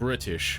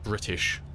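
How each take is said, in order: First: The middle T sound is dropped. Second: The middle T sound is clearly pronounced. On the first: The speaker calls it right. "it's pronounced British ... There is no T in it" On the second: The speaker calls it wrong. "not British"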